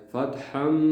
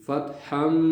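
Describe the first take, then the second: No difference in how they are said.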